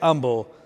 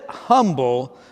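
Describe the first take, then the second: First: It is said the Texas way, without the H. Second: It is said as spelled, with the H sounded.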